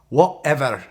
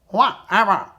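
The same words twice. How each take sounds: First: It is said in a Scottish accent. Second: It is said in a quacking duck voice. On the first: "let me say it in a Scottish accent" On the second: "Let's say it like a duck"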